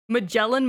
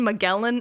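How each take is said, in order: First: Magellan with a soft g, like "ma-JELL-an". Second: Magellan with a hard g, like "ma-GELL-an". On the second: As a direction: say the g in Magellan as in "get". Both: Shown as a demonstration. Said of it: "How the fuck is his name pronounced?".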